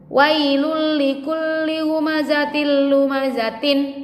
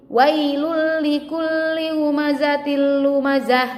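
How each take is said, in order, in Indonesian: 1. Kata terakhir berakhir dengan bunyi t yang penuh. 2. Kata terakhir berakhir dengan bunyi h yang lembut. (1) "tulisannya kan tin tuh ya kan?"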